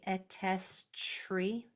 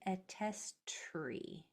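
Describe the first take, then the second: First: The t-r cluster sounds like 'chr'. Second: The t-r cluster sounds like a tight 'tr'. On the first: The speaker calls it wrong. "Try not to say attestry. / make sure it's not coming out as C H R" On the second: The speaker calls it right. "Say attestry"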